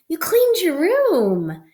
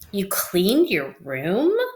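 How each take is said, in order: First: It sounds excited, with a raised voice. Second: It sounds sarcastic and a little disgusted. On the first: The speaker is happy the room was cleaned. "my tone was excited because my voice, like I raised my voice in an excited manner" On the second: The room was not really cleaned. "my tone of voice was sarcasm. Um, I probably sounded a little bit disgusted"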